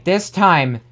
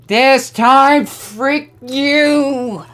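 First: Said in the usual way. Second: Loud, high yell of defiance; defiant shout. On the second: Real, not acted. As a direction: scream it at the level. Shouting at game on retry.

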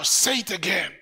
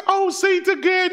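First: Said in the usual way. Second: Much higher, delighted plea; thrilled parent. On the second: Retold or imitated. Preacher voicing a parent thrilled by baby's first word, much higher delighted plea. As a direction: beg the baby to say it once more.

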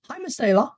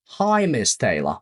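First: Bright example. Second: "Hi, Miss Taylor" slower and even; slow clear repeat. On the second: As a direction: spell it out slowly for the class. (powoli i wyraźnie) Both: Shown as a demonstration. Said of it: "Przykłady".

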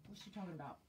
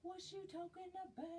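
First: Said in the usual way. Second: High, fast playful repeat of the question; mock puzzled squeak. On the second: Rereading a viewer comment, a high, quick, teasing puzzled question.

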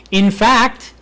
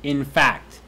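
First: In fact said high and loud, rising on fact; emphatic in fact. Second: Said in the usual way. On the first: Shown as a demonstration. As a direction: punch fact hard and high. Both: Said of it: "Where's the emphasis?".

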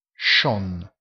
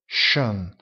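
First: "schon" with a plain back o. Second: "schön" with rounded front ö, lips pushed forward; schön with umlaut. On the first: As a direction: say "schon" with an open round o, no umlaut. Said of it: "si pronuncia schon". ("schon" con la o semplice) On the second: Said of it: "la O ha i due puntini e si pronuncia schön". ("schön" con la ö arrotondata) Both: Shown as a demonstration.

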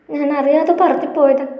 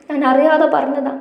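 First: Higher, tearful plea with അറിയാതെ pushed hardest; a girl apologising through tears, voice lifted high; tearful pleading. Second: Higher, upset, അറിയാതെ stressed; upset self-blame. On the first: Girlfriend apologising to Mahesh while crying, high and tearful. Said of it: "കരച്ചിലിനിടയിലും അവൾ പുലമ്പുന്നുണ്ടായിരുന്നു". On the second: Chippi blaming herself to Mahesh, higher and upset. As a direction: blurt the guilt out, voice lifted. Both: A narrator's reading.

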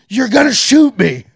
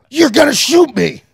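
First: Drawn-out, much higher loud disbelief; slow incredulous shout. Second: Much higher, loud shouted disbelief, half laughing; incredulous shout. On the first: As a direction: stretch it out, yelling in shock. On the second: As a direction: yell it at the guard in disbelief. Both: Retold or imitated. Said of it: "confronting guard".

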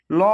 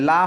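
First: ল said with a heavy, rounded "law" sound; thick L. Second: লা said light, with an open "laa" vowel; thin L. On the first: Teacher showing how it must be pronounced, thick heavy ল. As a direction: make ল full and dark, not "laa". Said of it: "মোটা করে". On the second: Teacher showing what it must not be, thin light লা. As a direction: give the light, thin লা sound. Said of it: "লা হবে না". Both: Shown as a demonstration.

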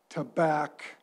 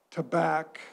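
The two takes are said the same way.

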